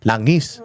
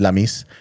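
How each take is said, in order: First: The middle consonant is an ng sound. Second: The middle consonant is an m sound. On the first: The speaker calls it right. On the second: The speaker calls it wrong.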